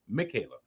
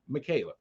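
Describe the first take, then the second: No difference in how they are said.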